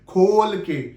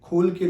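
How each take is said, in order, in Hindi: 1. ये शब्द मुँह खोलकर साफ़ बोले गए हैं। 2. ये शब्द बुदबुदाए गए हैं, मुँह मुश्किल से खुला है। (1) "प्रॉपर पूरा मुंह खोल के बोलिए" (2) "नहीं"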